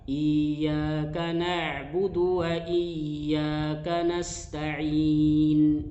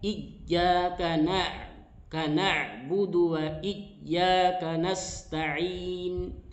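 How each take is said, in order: First: The doubled y is held too loosely. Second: The doubled y is pressed too hard. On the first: "terlalu longgar" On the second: "Tidak terlalu kuat"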